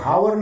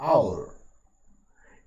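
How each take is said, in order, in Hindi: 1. शब्द की शुरुआत साफ़ सुनाई देने वाली h ध्वनि से होती है। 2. शब्द सीधे एक स्वर ध्वनि से शुरू होता है। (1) "ये हावर नहीं है" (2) "आ का उच्चारण है"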